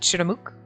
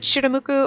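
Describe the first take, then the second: First: The word ends without the final u vowel. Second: The word ends with a pronounced u vowel. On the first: "Do you pronounce the U?" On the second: "Do you pronounce the U?"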